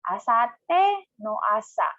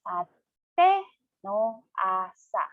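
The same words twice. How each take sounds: First: It is said at a normal, fluent speed. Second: It is said slowly, syllable by syllable.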